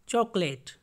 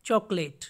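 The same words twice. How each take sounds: The two takes are said the same way.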